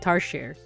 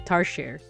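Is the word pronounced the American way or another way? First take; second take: non-American; non-American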